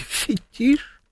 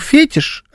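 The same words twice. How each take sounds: First: The stress is on the last syllable. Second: The stress is on the first syllable. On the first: This follows the usual Russian pronunciation from French. "а не фетиш" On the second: This follows the English pronunciation. "Почему я говорю фетиш"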